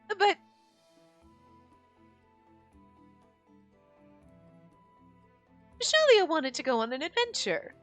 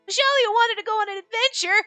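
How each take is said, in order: First: It is read in the speaker's normal voice. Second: It is read in a put-on character voice.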